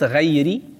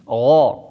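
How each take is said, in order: First: The gh sound is light and thin. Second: The gh sound is heavy and full. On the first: The speaker calls it wrong. "niet غيري. Wat heel vaak fout wordt gereciteerd" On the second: The speaker calls it right. "Gha, zware letter, gha"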